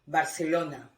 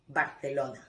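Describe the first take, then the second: First: The c sounds like the s in see. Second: The c sounds like the th in thin. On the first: This is how it is said in Latin America. "with the phonetic sound of S" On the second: This is how it is said in Spain. "the phonetic sound in Spain of theta"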